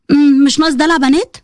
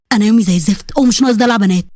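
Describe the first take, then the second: First: Questioning repeat with a rising end; mocking echo. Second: Low-pitched male grumble; irritated husband. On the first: Bride repeating husband's rebuke back at him, mocking. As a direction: throw the words back as an offended question. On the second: Acted. Husband rebuking his injured bride, irritated and low. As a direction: cut off her fuss in a low, impatient voice.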